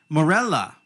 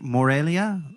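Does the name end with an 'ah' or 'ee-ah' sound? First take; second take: ah; ee-ah. First: The name ends with a plain ah sound. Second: The name ends with an ee-ah sound. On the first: The speaker calls it right. "I pronounced it totally wrong when I first did it" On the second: The speaker calls it wrong. "how do I say this? Is it Morelia?"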